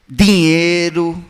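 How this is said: The d sound is hard and emphatic. The speaker is from the far end of Ceará. "mantêm o ti e o di, com ênfase"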